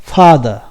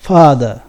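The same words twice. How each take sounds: First: ഫാദർ with an open a, stressed loud; father demo. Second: ഫാദർ said again, open a and louder; ഫാദർ open vowel; father demo. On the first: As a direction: say ഫാദർ clearly, open vowel. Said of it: "നോക്കാം". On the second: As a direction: stress ഫാദർ firmly. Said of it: "ഒരിക്കലും ഫാദർ എന്ന് പറഞ്ഞാൽ". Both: Shown as a demonstration.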